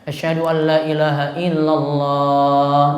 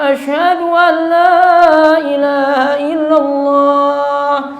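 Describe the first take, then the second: First: It is said in a plain, level tune. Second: It is said with an ornate, rising-falling melody.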